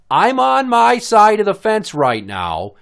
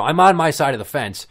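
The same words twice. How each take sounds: First: Slow, loud, high "on my side", every word punched; drawn-out, exasperated stress through "fence right now"; emphatic retort. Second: Said in the usual way. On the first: Retold or imitated. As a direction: spell out "my side of the fence" loudly and slowly. Acting out emphatic final warning.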